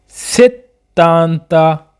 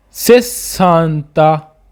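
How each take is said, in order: First: सेतांता very slow with a held double t; seventy in Italian, सेतांता held on the t; slow careful demo. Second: सेसांता very slow with a long double s; sixty in Italian, सेसांता held on the s; slow careful demo. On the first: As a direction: lean on the tt in सेतांता. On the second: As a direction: stretch the ss in सेसांता. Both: Shown as a demonstration. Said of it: "सेसांता और सेतांता में फ़र्क है".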